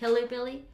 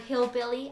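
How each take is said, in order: First: The word is said with two syllables before billy. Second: The word is said with one syllable before billy. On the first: The speaker calls it wrong. "I used to say hillybilly" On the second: The speaker calls it right. "the word hillbilly"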